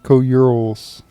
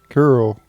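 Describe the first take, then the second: First: The name is split into several syllables. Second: The name is said as one syllable. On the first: "I always called them Co-Urals" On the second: "That's how you pronounce them"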